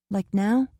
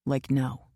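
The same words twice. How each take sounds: First: Hopeful question. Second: Quiet answer. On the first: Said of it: "She gazed at him". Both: A narrator's reading.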